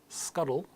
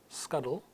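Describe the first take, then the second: No difference in how they are said.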